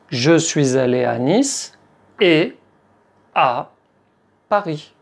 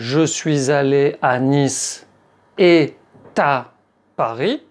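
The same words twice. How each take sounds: First: Et and à are said separately without linking. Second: A linking t sound joins et to à. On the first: The speaker calls it right. "La liaison avec le mot « et » est interdite" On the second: The speaker calls it wrong. "On ne dit pas"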